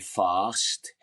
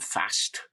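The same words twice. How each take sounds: First: The vowel is long and broad. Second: The vowel is short and flat. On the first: It is the polished way taught in drama class. "you learn how to say fast" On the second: It is the speaker's original local way. "instead of fast"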